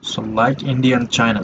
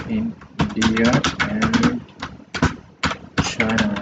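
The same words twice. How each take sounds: First: Said in the usual way. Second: Slow, drawn-out, pitched up on India; slow dictation. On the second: Shown as a demonstration. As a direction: spell it out slowly while writing. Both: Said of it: "Let me put it".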